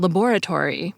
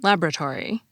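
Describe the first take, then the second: First: Every syllable is pronounced, none dropped. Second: A middle syllable is dropped from the word. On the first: "other three-syllable words in which the middle syllable is often dropped" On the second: "which is often pronounced"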